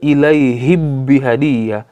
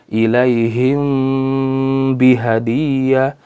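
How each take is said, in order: First: The m is merged fully into the b. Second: The m is hidden with a held nasal hum. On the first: The speaker calls it wrong. "Tidak dibaca dengan idgham juga" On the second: The speaker calls it right. "dibaca dengan samar-samar antara izhar dan ikhfa yang disertai dengan gun gunnah"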